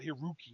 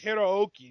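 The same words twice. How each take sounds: First: The o vowel is said short, single. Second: The o vowel is held long, doubled. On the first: The speaker calls it wrong. "not Hiroki" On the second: The speaker calls it right. "it's Hiroki, in Japanese you pronounce both the O's"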